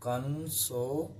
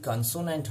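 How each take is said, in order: First: consonant drawn out syllable by syllable; slow dictation. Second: Said in the usual way. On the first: Shown as a demonstration. Teacher dictating consonant to students, slow and drawn out. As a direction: say consonant slowly, broken into its parts. Teacher repeats term slowly for note-taking.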